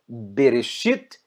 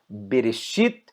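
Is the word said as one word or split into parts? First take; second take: one word; one word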